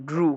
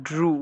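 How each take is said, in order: No difference in how they are said.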